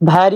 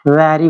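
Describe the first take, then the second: First: The word begins with a breathy b sound. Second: The word begins with a v sound. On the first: The speaker calls it wrong. "बहुत लोग इसको क्या पढ़ता है? भैरी बोलते हैं" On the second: The speaker calls it right. "वैरी बोलना चाहिए"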